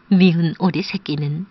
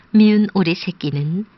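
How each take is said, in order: Both takes have the same delivery.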